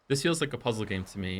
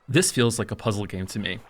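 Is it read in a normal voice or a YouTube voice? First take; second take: normal voice; YouTube voice. First: It is read in a plain normal voice. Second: It is read in a put-on YouTube voice.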